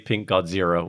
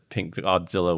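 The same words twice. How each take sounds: First: The name is said with an R sound. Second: The name is said with an L sound. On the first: "with the R" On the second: "with the L"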